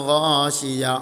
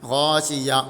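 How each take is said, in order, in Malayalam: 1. ഇത് അവസാന ഹ-യ്ക്ക് മുമ്പ് മുറിയുന്നു. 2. ഇത് അവസാന ഹ-യ്ക്ക് മുമ്പ് മുറിയുന്നു.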